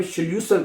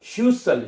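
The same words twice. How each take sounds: First: श्ल्यूसल with L right after "sh". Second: श्यूसल as "shyu-sal", no L; without the L. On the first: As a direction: say श्ल्यूसल as "shlyu-sal". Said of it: "उसमें L आता है". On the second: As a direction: go straight from "sh" to "yu" in श्यूसल. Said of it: "अगर L के बगैर होगा". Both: Shown as a demonstration.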